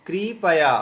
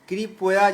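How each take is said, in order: No difference in how they are said.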